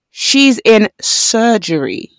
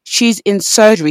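First: Very slow, each word drawn out; deliberate, stretched-out retold line; slowed right down. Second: Said in the usual way. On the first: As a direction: spell it out slowly for someone not listening. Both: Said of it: "he has to slow it down".

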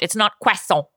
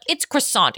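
First: Said in the usual way. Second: "croissant" said the French way, kwah-SAHN, mocking; a put-on French accent on "croissant"; snobby French-accented "croissant". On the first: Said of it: "with a French accent". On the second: Shown as a demonstration. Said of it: "pronounce a French word with a French accent".

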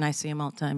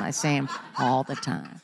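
First: Said in the usual way. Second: Repeated through a laugh. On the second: Real, not acted. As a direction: laugh it out in disbelief. Repeats line, second time laughing.

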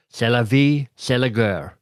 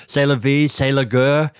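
First: Put-on a light French accent on the phrase. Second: Louder, more hammed-up French accent with a rising end. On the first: Author tossing off a French saying, light French accent. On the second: Author repeating the French saying, hammed-up French accent. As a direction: lean into the French accent with a flourish.

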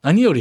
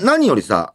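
First: 何より in natural Kansai intonation; Osaka accent. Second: 何より said with a non-Osaka pitch accent; 何より slipping into Tokyo-style intonation; 何より with the accent pattern picked up in Tokyo; off-key accent. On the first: Shown as a demonstration. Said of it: "何よりやろ、大阪弁は". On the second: Real, not acted. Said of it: "何よりは言い方気になるな".

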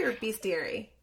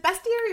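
First: "bestiary" with a long ee, like beast; other pronunciation. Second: "bestiary" with a short e, as in best; alternative pronunciation. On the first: Host asking a writer how it is said, long-ee pronunciation. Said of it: "It's bestiary". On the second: Host asking a writer how it is said, short-e pronunciation. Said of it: "it looks like bestiary". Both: Shown as a demonstration.

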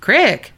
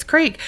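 First: "Crick" with a short i; dialect crick. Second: "creek" with a long ee; standard creek. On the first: Retold or imitated. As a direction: say "Crick" to rhyme with brick. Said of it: "having Carrie say crick". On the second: Shown as a demonstration. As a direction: say "creek" to rhyme with seek, higher. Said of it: "It's creek".

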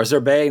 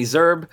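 First: "Zerbe" with the final e sounded as "ay"; two-beat "Zerbe", ending like bay; Zerbe as two syllables. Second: "Zerbe" with a silent final e; one-beat "Zerbe", rhyming with curb; Zerbe as one syllable. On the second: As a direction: say "Zerbe" as ZURB. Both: Shown as a demonstration. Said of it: "not sure how you pronounce it".

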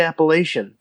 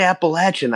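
First: Appalachian with a long A, "LAY-shun"; "lay" in the middle of Appalachian; outsider's pronunciation. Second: Appalachian as the locals say it, "appa-LATCH-un"; "latch" in the middle of Appalachian; local pronunciation. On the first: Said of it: "I say Appalachian". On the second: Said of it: "They say Appalachian". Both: Shown as a demonstration.

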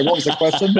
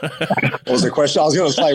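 First: Said in the usual way. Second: Chuckling while he asks it back; laughing. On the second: Real, not acted. Laughing at a repeated question.

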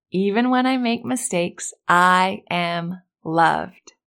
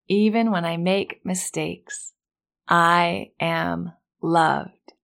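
First: Very slow, deliberate affirmation. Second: Very slow, stretched-out repeat; slower affirmation. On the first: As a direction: stretch out I am loved. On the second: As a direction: draw it out for the echo. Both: Shown as a demonstration. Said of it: "repeat after me".

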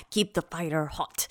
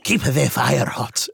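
First: Low, slow, soft mock grandma line; imitating Omi. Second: Slow, drawn-out mock Omi; echoing the grandma line. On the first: Mimicking Omi to co-host, low and slow. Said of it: "She was all". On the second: Repeating co-host's Omi impression, slow and drawn. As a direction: stretch it out like a lazy warning.

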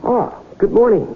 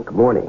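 First: Cheery greeting. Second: Said in the usual way. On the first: Acted. Salesman greets a startled tycoon.

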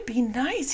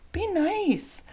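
First: Higher, gentle warning "be nice"; a coaxing reminder to the dog to behave; telling the dog. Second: Much higher "Be nice" with the weight on "Be", falling; firm warning to dog. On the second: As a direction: insist the dog behave, high and firm. Telling dog be nice again. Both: Real, not acted.

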